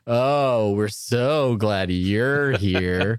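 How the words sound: It is said in a sarcastic, mocking tone.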